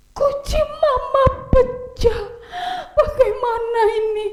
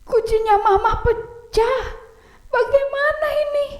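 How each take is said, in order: First: Put-on panicked boy. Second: High child voice, giggly mock panic; panicking boy. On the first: Oni sees the broken vase, high mock panic. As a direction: act out a frightened little boy. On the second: Oni panics over mama's vase, high giggly mock alarm. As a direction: wail it like a scared kid.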